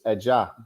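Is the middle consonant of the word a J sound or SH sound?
J sound. The middle consonant sounds like an English J. "It's, it's a it's a j sound in English"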